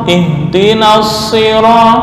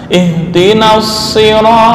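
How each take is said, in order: No difference in how they are said.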